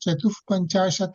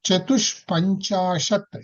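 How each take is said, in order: First: The first word ends in a breathy h. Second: The first word ends in an sh sound. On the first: "చతుః పంచాశత్ అనొచ్చు" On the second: "ఇది శాకారం కూడా చెయ్యొచ్చు"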